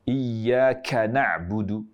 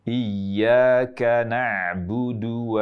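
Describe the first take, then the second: First: The k is said with heavy, excessive breath. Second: The k is said with light breath. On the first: The speaker calls it wrong. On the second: The speaker calls it right.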